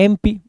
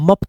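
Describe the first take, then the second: First: It is spelled out letter by letter. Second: It is said as one short syllable. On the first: The speaker calls it right. "तो इसको जब पढ़ते हैं तो क्या पढ़ते हैं?" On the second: The speaker calls it wrong. "मप तो नहीं पढ़ते हैं"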